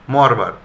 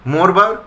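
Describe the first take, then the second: First: মরবার said mɔrba, open first vowel, lower with a fall; ɔ-sound version. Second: মরবার said morba, first vowel o, higher with a rise; o-sound version. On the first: (মরবার অ-কারান্ত উচ্চারণে) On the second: (মরবার ও-কারান্ত উচ্চারণে) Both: Shown as a demonstration. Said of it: "দুরকম উচ্চারণ পেলাম".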